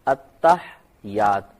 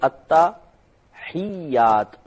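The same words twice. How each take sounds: First: The h is silent and y is single. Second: The h carries a vowel and y is doubled. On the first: The speaker calls it wrong. "हा को साकिन कर देते हैं और ये की तशदीद खत्म कर देते हैं" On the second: The speaker calls it right. "लफ्ज है अत्तहियात। ... या पे तशदीद है। ... हा के नीचे जेर है"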